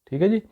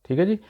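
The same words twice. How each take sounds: Both takes have the same delivery.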